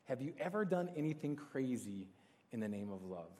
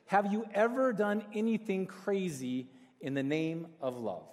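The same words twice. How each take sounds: First: Soft, lower repeat of a question; hushed and falling away at the end; reflective repeat. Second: Slow, deliberate delivery of a big question; measured, weighty question, drawn out; emphatic question. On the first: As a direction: let the question sink in quietly. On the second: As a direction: pose it slowly to the whole room, dropping on the last words. Posing the key question. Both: Real, not acted.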